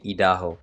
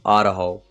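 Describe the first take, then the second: First: It is said with a French accent. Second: It is said with an American accent. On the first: This is how the speaker says it. "I say Idaho. ... I have the French accent" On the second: This is how the listeners say it. "You guys say Idaho"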